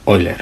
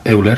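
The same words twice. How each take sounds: First: The name is said with German pronunciation. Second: The name is said with non-German pronunciation. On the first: The speaker calls it right. "sino que se pronuncia Euler" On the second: The speaker calls it wrong. "en alemán no se pronuncia Euler"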